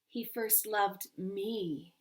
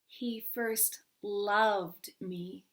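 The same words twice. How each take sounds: First: The stress falls on the word me. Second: The stress falls on the word loved.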